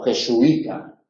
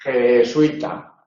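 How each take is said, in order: First: Jesuita with su and i split apart; hiatus take. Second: Jesuita with sui said as one glide; diphthong take. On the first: Teacher demonstrating the split reading of jesuita. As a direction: separate su from i in jesuita. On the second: Teacher demonstrating the one-syllable reading of jesuita. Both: Shown as a demonstration. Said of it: "tenemos también jesuita o jesuita".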